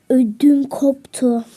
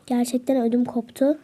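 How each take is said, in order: First: Slow scared gasp. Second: Said in the usual way. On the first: Real, not acted.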